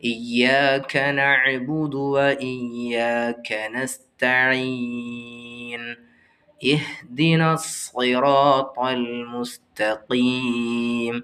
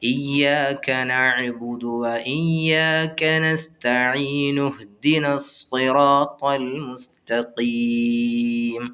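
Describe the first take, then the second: First: There is a stop after nasta'een. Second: Nasta'een runs straight into the next word. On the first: "ഇങ്ങനെയാണ് നിർത്തി ഓതേണ്ടത്" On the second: "കൂട്ടി ഓതുമ്പോൾ നൂനിന് ലൊമ്മ് കൊടുത്ത് ഓതണം"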